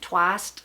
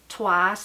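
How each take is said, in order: First: The word ends with an added t sound. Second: The word ends without a t sound.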